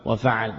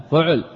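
First: وفعل as wafaʕl, the other reading, falling; the second reading of وفعل; second vowel form. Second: فعل with the first voicing of the two, raised; the first reading of فعل; first vowel form. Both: Shown as a demonstration. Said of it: "فيه لغتان".

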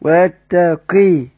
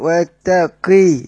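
First: ويتقي again slowly, qaf with short i; kasr on the qaf. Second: ويتقي with a clear short i after the qaf, slow; kasr on the qaf. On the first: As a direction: repeat ويتقي, qaf with kasra. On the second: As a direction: say ويتقي slowly, qaf with kasra. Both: Shown as a demonstration. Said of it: "بيقرأ بالكسر".

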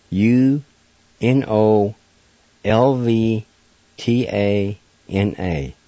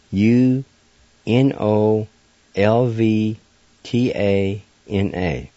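The two takes are said the same way.

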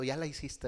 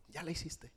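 First: Said in the usual way. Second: Much softer repeat of "ya la hiciste", trailing down; soft echo. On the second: Real, not acted. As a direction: let "ya la hiciste" drop away, softer, like an afterthought. Repeated punchline, echoed softly.

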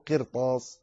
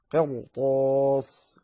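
First: "قرطاس" with a light, thin ra; wrong light ra. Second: "قرطاس" slowly, with a heavy, full ra. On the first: Teacher showing what not to say, "قرطاس" with a light ra. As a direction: say "قرطاس" with the ر thinned. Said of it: "لا تقل قرطاس". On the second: Teacher giving the correct reading, slow "قرطاس" with heavy ra. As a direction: stretch "قرطاس" and thicken the ر. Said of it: "تفخم فيها الراء". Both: Shown as a demonstration.

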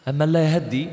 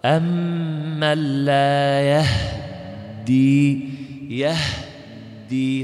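First: Said in the usual way. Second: Very slow chant, يهدي as yah-ddi with still h; iskan recitation. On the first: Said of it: "هكذا". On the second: Shown as a demonstration. Teacher demonstrating iskan on a verse, drawn-out chant. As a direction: linger on the h of يهدي, then press the doubled d. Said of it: "تسكن الهاء وتشدد الدال".

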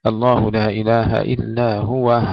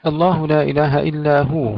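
First: هو recited as huwah, closing on a breathed h; pausal haa ending. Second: Said in the usual way. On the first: Shown as a demonstration. Teacher demonstrating Yaqub's reading, هو ending in huwah. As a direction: end هو on wah with a silent haa. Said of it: "يقرأ بهاء السكت".

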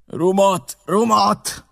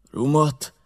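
First: Higher, louder demand for rum; the captain calls out "Rumot!" twice, pressing. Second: Said in the usual way. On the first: A narrator's reading. Staggering captain calls out for rum, higher and louder. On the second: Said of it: "ismételte".

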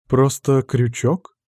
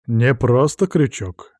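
First: Slow, intrigued question; curious surprise. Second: «просто» slow with falling stress. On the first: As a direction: wonder at the tool. Interested question. (с интересом, медленно) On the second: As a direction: correct her, leaning on «просто». Corrects her. (ударение на «просто», медленно) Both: Acted.

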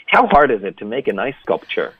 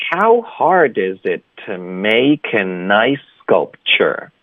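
First: Said in the usual way. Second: "How hard is it to make a nice sculpture" slow, linked; slow linked model. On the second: Shown as a demonstration. Teacher modelling the whole sentence for students, slow and linked. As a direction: draw out each word, running them together. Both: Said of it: "所以整个句子就是".

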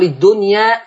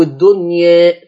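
First: "الدنيا" ending in a full open long a; open fath. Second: "الدنيا" with the final a tilted slightly to e; taqlil. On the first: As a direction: say "الدنيا" with the final alif wide open, as in Hafs. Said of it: "فتح زي حفص". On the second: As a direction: draw out "الدنيا", its last alif leaning toward e. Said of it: "أميل بالألف شوية". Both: Shown as a demonstration.

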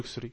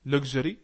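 First: Luxury with unvoiced "ksh", "LUK-shree"; alternative pronunciation. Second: Luxury slowly with voiced "gzh", "LUG-zheree"; pronunciation option. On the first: Teacher comparing pronunciations for student, luxury as "LUK-shree". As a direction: say luxury with a k-sh in the middle. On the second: Teacher comparing pronunciations for student, luxury as "LUG-zheree". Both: Shown as a demonstration. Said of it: "أنا عايز أعرف النطق إزاي".

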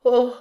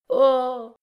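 First: Short, high "Oh" of horror; a brief first cry of dismay; horrified gasp. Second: Long, high, emphatic "Oh"; heightened horror. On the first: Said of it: "plus d'horreur que dans la première". (petit cri d'horreur) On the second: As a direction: draw the "Oh" out, heavy with horror. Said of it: "mettant dans son interjection plus d'accentuation et plus d'horreur". (cri d'horreur appuyé) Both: A narrator's reading.

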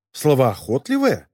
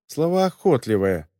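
First: «Словоохотливая?» медленно, с резким подъёмом тона в конце; недоверчиво переспроси «Словоохотливая», задрав конец слова вверх; недоумённый переспрос. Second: Said in the usual way. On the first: Acted. Возмущённо переспрашивает прочитанное. (протяни «Словоохотливая» как удивлённый вопрос)

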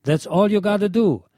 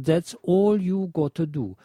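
First: Said in the usual way. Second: "That's all you gotta do" in German-sounding vowels; phonetic spelling read out. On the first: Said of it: "folgender Aussprachehinweis gegeben". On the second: Shown as a demonstration. Reading the label's phonetic hint, German-style pronunciation. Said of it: "die phonetische Umschreibung".

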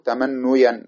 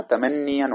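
First: تمنيا with damma on the nun, tamannuyan; mock-wrong تمنيا with u before the ya; wrong form. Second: تمنيا with kasra on the nun, tamanniyan; correct form. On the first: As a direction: say تمنيا as ta-man-nu-yan, the rejected form. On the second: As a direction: say تمنيا as ta-man-ni-yan. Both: Shown as a demonstration. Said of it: "ولا نقول".

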